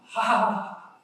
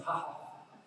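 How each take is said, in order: First: Voiced ha ha laugh shown to the class; demo laugh. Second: Unvoiced, much softer ha ha; breathy laugh. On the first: Teacher showing students how to laugh, hearty demo laugh. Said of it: "when you are laughing". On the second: Teacher showing the quiet laughing breath, soft breathy laugh. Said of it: "When we are laughing". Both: Shown as a demonstration.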